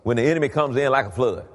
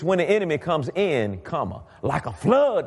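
First: It runs on with no break after comes in. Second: There is a break after comes in.

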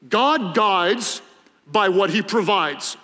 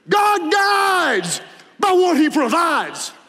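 First: It is said plainly, like an ordinary saying. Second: It is said in a dramatic preaching style.

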